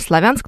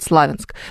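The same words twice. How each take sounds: First: The stress is on the second syllable. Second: The stress is on the first syllable. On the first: This is the standard dictionary form. The speaker calls it right. "на самом деле Славянск ... с ударением на букву «Я»" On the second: This is how local people say it. The speaker calls it wrong. "но они там говорят «Славянск»"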